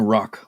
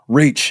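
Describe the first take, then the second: First: The vowel is the open 'o' of 'rock'. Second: The vowel is the short 'a' of 'ratch'. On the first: The speaker calls it wrong. "I was saying rock, like the rock" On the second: The speaker calls it right. "It's not rock"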